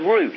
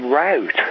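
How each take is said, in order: First: Route is said without an 'ow' vowel. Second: Route is said with an 'ow' vowel. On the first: This is how it is said in Britain. "In Great Britain, we speak the Queen's English" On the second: This is how it is said in America. "they say route, R-O-W-T"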